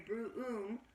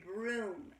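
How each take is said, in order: First: The vowel is split into two separate parts. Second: The vowel is one continuous sound. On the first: The speaker calls it wrong. "You don't say broom" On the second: The speaker calls it right. "you say broom, and the O sounds like one continuous vowel"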